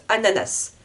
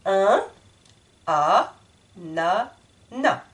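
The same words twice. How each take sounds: First: "ananas" with the final S sounded, as many French say it; common wrong S. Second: "ananas" broken into slow separate syllables, no S; syllabified. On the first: Retold or imitated. Teacher imitates the common mistaken pronunciation. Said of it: "ce n'est pas correct". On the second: Shown as a demonstration. Teacher splits the word into syllables for the class. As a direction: chop "ananas" into beats. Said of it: "je répète le mot".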